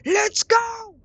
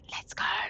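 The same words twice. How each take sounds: First: It is said aloud, not whispered. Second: It is said in a whisper.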